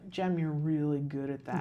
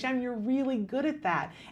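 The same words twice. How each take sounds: First: It is said with a sour, unhappy tone. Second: It is said with a warm, smiling tone.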